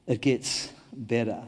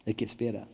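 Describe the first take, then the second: First: Slowed, each word weighed; slow deliberate repeat of the promise; slow emphatic assurance. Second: Much softer, gentle promise; hushed comforting declaration; soft assurance. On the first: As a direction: let it land slowly and firmly. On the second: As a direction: say it quietly, almost to one person. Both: Shown as a demonstration. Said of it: "I have a message for you this morning".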